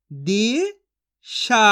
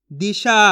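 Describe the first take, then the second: First: Disha stretched slowly with a falling end; slow drawn-out sounding. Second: Said in the usual way. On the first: Shown as a demonstration. Teacher stretching Disha slowly for children to copy. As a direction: draw out Disha slowly, then let it fall. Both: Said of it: "मैं किस तरीके से एक एक अक्षर का उच्चारण करके".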